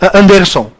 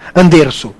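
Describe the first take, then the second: First: The stress is on the second syllable. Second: The stress is on the first syllable. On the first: The speaker calls it wrong. "não é uma paroxítona" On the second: The speaker calls it right. "É uma proparoxítona"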